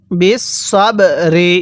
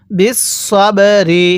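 The two takes are said the same way.

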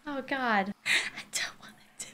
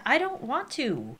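First: Whispered reluctant dread; scared whisper. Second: Said in the usual way. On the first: Real, not acted. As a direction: barely breathe it out in fear. Scared of ghost smudge.

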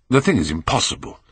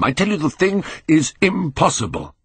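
First: Said in the usual way. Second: High-pitched, vehement insistence; agitated, high-voiced protest; frantic denial. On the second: A narrator's reading. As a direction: insist on it, pitch climbing in disbelief. Frantic repeated denial of the truth.

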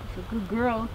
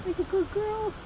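First: Said in the usual way. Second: High, soft praise for the dog; doggy talk. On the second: Real, not acted.

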